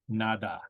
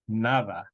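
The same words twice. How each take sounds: First: The middle consonant is a hard d sound. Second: The middle consonant is a soft th-like sound. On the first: The speaker calls it wrong. "It's not nada" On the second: The speaker calls it right. "That is just a T H sound"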